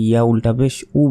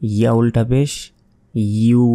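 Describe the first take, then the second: First: The final syllable is a bare u vowel. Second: The final syllable starts with a y glide. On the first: The speaker calls it wrong. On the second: The speaker calls it right.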